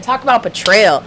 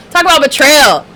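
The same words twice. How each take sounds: First: Said in the usual way. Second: Emphatic repeat. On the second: Shown as a demonstration. To her stream viewers, repeating the phrase louder for emphasis. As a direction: Talk about betrayal said louder and higher, stressing betrayal.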